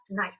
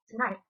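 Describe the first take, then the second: First: "tonight" with the first vowel dropped; elided, connected-speech "tonight"; vowel elision. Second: Said in the usual way. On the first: Shown as a demonstration. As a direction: run the t straight into the n in "tonight". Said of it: "we have elision". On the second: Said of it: "the vowel, we have tonight".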